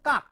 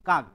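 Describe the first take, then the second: First: The word ends with a voiceless k sound. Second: The word ends with a voiced g sound. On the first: The speaker calls it right. "Actually উচ্চারণটা হবে কাক, কয় ক, not কয় কয় আকার গ" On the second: The speaker calls it wrong. "আমরা অনেকেই কাকের কথা বলি"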